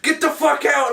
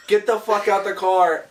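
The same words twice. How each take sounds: First: High-pitched retold shout; exasperated mock yell. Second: Slow, mildly raised mock command; acted order. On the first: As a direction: act out losing patience with a scene partner. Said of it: "supposed to, like, yell". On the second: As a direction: retell an acted line, slightly projected and measured. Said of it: "I look at Leandro and I go".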